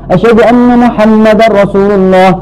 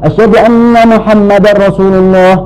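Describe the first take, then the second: The two takes are said the same way.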